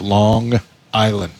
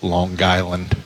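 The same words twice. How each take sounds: First: It is said plainly, without the New York accent. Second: It is said with a heavy New York accent.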